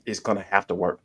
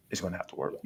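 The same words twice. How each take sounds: First: Said in the usual way. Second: Much softer repeat; quiet echo. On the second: Real, not acted. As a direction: say it again under your breath.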